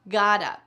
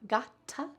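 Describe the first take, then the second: First: The middle consonant is a soft D sound. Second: The middle consonant is a crisp T sound. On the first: The speaker calls it right. "the T is changing to a D" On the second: The speaker calls it wrong. "it is not gotta"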